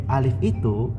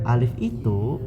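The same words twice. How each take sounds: Both takes have the same delivery.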